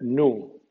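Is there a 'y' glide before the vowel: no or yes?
no. The vowel is a plain oo sound. This is the American pronunciation. "U en USA"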